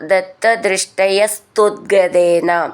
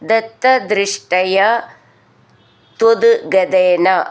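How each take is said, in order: First: The words are joined with an added s sound. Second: The words are kept apart with no added s.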